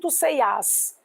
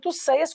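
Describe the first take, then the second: First: The verb's stress falls on its last syllable. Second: The verb's stress falls on its first syllable. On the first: The speaker calls it wrong. "Eu não digo tu ceias" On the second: The speaker calls it right. "como a sílaba tônica está no radical"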